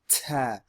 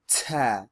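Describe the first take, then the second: The two takes are said the same way.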